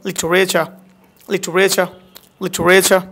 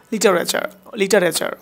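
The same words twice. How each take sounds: First: লিটারেচার with "chu" and no final r; smart pronunciation. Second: লিটারেচার with full "taa-re-char"; ordinary pronunciation. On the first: Teacher drilling the new form, লিটারেচার as "li-chu-re-cha". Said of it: "আজকে পর থেকে আপনি উচ্চারণ করবেন". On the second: Teacher showing the old habit, লিটারেচার as "li-ta-re-char". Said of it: "যদি আপনি লিটারেচার উচ্চারণ করে থাকেন". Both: Shown as a demonstration.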